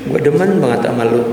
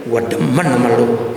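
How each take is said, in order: First: "Gua demen banget sama lu." with real feeling behind it; sincere liking. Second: "Gua demen sama lu." with a half-hearted tune that shows no liking; unconvinced intonation. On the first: Preacher showing how real affection sounds, sincere. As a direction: say "Gua demen banget sama lu." warmly, meaning every word. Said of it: "Beda dengan". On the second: Preacher showing intonation that reverses the meaning, half-hearted. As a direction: say "Gua demen sama lu." flatly so it means the opposite. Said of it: "Itu kan gak demen namanya". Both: Shown as a demonstration.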